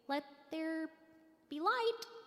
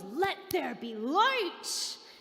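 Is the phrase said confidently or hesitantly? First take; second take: hesitantly; confidently. First: It is said hesitantly, without confidence. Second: It is said with absolute confidence.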